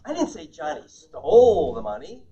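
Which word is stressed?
stole. The stress is on stole.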